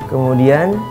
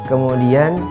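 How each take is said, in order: Both takes have the same delivery.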